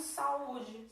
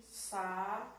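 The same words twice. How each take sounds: First: Said in the usual way. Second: "Saúde" in three separated syllables; slow dictated "Saúde". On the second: Shown as a demonstration. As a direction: break "Saúde" into sa, ú, de with long pauses. Teacher splits the word into syllables.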